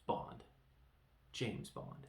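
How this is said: There is a short pause after the first Bond.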